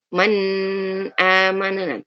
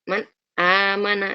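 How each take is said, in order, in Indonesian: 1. Huruf n memiliki dengung sengau yang panjang. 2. Huruf n sama sekali tidak memiliki dengung sengau. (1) "Tapi bukan berarti boleh ditambahkan gunnahnya ya. Nggak boleh dibaca" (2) "tidak ada gunnah sama sekali"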